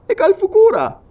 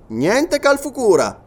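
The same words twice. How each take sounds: First: Very high, loud query; astonished question. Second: NIENTE CALFUCURA slow and high, then falling; firm denial. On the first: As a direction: ask in high-pitched disbelief. Listener asks in growing surprise. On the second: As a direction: deny "niente Calfucura" slowly and flatly at the end. Sergeant answers in the negative. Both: Acted.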